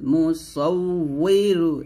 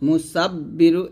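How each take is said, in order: First: The middle consonant is a 'w' sound. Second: The middle consonant is a doubled 'b' sound. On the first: The speaker calls it right. "এখানে উই বলতে হবে" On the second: The speaker calls it wrong. "এটা কিন্তু ভুল"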